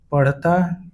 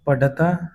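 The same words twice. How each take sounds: First: Said in the usual way. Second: पढ़ता with a stopped ḍh, no flap; पढ़ता said as पढता; hard ढ. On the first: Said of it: "शुद्ध है". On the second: Shown as a demonstration. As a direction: say पढ़ता as paḍḍha-taa. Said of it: "अशुद्ध होता है".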